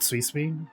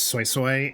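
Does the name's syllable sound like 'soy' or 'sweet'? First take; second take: sweet; soy. First: Each syllable sounds like 'sweet'. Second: Each syllable sounds like 'soy'. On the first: This is not how the game says the name. The speaker calls it wrong. "not Sweet Sweet" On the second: This is how the game says the name. The speaker calls it right. "her pronunciation of her name is Soy Soy in the game"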